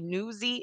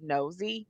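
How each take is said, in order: First: The vowel sounds like 'new', as in Philadelphia. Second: The vowel sounds like 'no', as usually said. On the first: "in Philly they say newsy" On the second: "instead of actually nosy"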